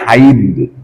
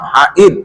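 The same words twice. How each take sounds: First: The two vowels are joined by a y-glide. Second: A glottal catch separates the two vowels. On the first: "Kalau haid pakai ya" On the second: "pakai hamzah"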